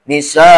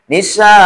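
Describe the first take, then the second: First: The final vowel is short, not lengthened. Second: The final vowel is lengthened to two counts. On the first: The speaker calls it wrong. "kadang mad iwadnya tidak dibaca" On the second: The speaker calls it right. "harusnya Nisa"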